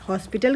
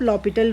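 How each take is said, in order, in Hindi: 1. P से पहले S की ध्वनि बोली जाती है। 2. P से पहले S की कोई ध्वनि नहीं बोली जाती। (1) "हॉस्पिटल कहिए चाहे" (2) "एस साइलेंट होता है तो आप लॉपिटल रूल भी कह सकते हैं"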